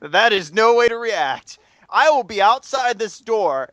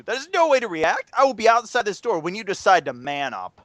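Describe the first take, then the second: First: Slow, measured, firmly calm; calm him down with slow words; very calm professor. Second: Stern challenge. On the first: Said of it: "very calm". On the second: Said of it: "very calm to". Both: Retold or imitated.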